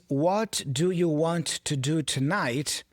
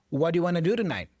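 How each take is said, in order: First: Each word is said separately and fully. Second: The words run together in connected speech. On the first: "The phrase" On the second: "many times in a movie becomes"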